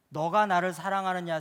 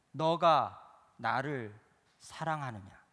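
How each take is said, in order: First: Louder, pressing question. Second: Drawn-out, slow questioning; slow repeated question. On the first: Preacher voicing Jesus pressing Peter, loud and direct. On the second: Preacher voicing Jesus asking Peter again, slow and drawn-out. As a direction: stretch each word as Jesus asks again. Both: Acted.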